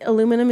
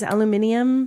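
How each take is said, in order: First: It has four syllables, ending in -num. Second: It has five syllables, ending in -nium.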